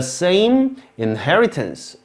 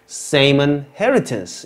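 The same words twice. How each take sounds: First: Each word is said fully and clearly. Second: The unstressed words are blurred and run together. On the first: "이렇게 가면 참 좋은데" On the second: "이렇게 이렇게 들린단 말이에요"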